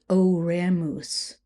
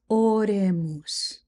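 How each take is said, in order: First: The first vowel glides as a diphthong. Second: The first vowel is a pure, steady O. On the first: The speaker calls it wrong. "we don't want diphthongs. We're not going to say oremus" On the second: The speaker calls it right. "It's oremus"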